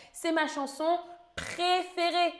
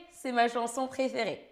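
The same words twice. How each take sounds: First: Raised, bright answer. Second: Said in the usual way. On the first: Shown as a demonstration. Teacher revealing the correct answer, pitched up. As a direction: say the answer higher to mark it. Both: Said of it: "c'est la première réponse, la correcte".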